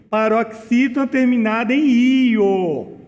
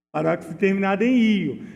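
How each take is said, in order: First: Paroxítona terminada em io, slowed with the weight on the ending; slow emphatic stress. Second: Quick plain repeat. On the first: Teacher drilling the rule for students, slow and emphatic. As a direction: lean on each word and stress "em io". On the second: Teacher quickly repeating the rule to students, fast and light. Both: Shown as a demonstration. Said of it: "Não esqueça".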